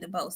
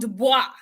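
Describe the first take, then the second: First: The name ends with a 'bose' sound. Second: The name ends with a 'bwah' sound. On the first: The speaker calls it wrong. "I keep saying DeBose" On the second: The speaker calls it right. "you listen to my friend say it right"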